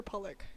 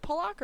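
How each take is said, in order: First: Pollock said as PUH-lick; short "ick" at the end of Pollock; Pollock with reduced ending. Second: Pollock said as puh-LOCK; Pollock with full ending. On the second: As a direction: open "lock" at the end of Pollock. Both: Shown as a demonstration. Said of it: "Is it Pollock or Pollock?".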